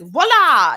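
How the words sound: It is said like an American magician.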